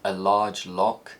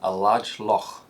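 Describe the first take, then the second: First: It is said in a standard, non-Scottish accent. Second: It is said in a Scottish accent. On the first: "a phrase like" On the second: "in Scotland is likely to be pronounced"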